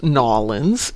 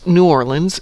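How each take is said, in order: First: "Nawlins" run together as two syllables, NAW-linz; local pronunciation. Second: Said in the usual way. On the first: Shown as a demonstration. Streamer teaching the local name of New Orleans, "Nawlins" said NAW-linz. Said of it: "is pronounced Nawlins". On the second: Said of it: "New Orleans is pronounced Nawlins".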